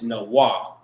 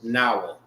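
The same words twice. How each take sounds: First: The word is split into separate syllables. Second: The word is run together as one unit. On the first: "when you sounded it out" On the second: "when you say it as one word"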